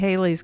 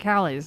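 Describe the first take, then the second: First: The first vowel is a long 'ay' sound. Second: The first vowel is a short 'a' sound. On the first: The speaker calls it wrong. "because that's not how it's pronounced" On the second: The speaker calls it right. "It's like Halley's"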